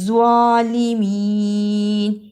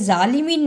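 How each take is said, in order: First: It begins with a heavy z sound. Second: It begins with a j sound. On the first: The speaker calls it right. "ज़्वा की जगह पर जा की आवाज नहीं आनी चाहिए" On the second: The speaker calls it wrong. "इसे जालिमीन नहीं पढ़ना"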